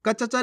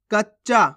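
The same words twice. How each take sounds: First: कच्चा as ka-cha-chaa; full-letter misreading. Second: कच्चा as kach-chaa; half-letter pronunciation. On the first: Teacher rejects this reading, कच्चा with full च. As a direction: sound each च fully in कच्चा. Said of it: "नहीं". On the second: Teacher answers how to read it, कच्चा with half च. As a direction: hold the doubled च in कच्चा. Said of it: "कैसे पढ़ेंगे". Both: Shown as a demonstration.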